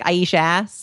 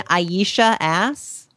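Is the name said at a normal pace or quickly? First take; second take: quickly; normal. First: The name is said quickly, run together. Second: The name is said at a normal pace. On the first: It sounds like a crude phrase. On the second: It sounds like a drag name.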